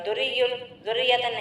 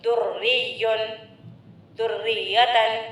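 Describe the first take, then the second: First: The doubled consonants are said lightly, not held. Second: The doubled consonants are held firmly and strongly. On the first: The speaker calls it wrong. "खाली दुर्रियुन दुर्रियतन नहीं बोलना चाहिए" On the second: The speaker calls it right. "इस तरह से सख्ती से अदा करना चाहिए"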